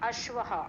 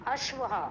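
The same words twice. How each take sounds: Both takes have the same delivery.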